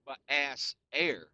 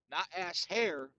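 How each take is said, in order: First: "air" with no h, slow and stressed; ass air. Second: "hair" said with a clear h; ass hair. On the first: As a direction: say "ass air", dropping the h and leaning on air. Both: Shown as a demonstration.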